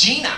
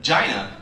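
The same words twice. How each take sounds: First: "Gina" said as JEE-nuh, higher; higher "Gina" pronounced JEE-nuh, rising; insisted pronunciation. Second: "Gina" said as JY-nuh, rhyming with China; low "Gina" pronounced JY-nuh; spelling pronunciation. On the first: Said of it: "It's Gina". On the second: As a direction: say "Gina" with a long i, falling. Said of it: "But G I N A". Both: Retold or imitated.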